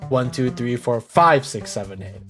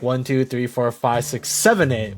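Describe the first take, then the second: First: The stress falls on five. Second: The stress falls on seven.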